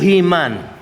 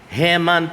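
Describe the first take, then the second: First: The name sounds like the superhero He-Man. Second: The name does not sound like He-Man. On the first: The speaker calls it wrong. "Hindi po Himan. ... hindi si He-Man na superhero" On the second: The speaker calls it right. "Heman po ang pronunciation ng pangalan niya"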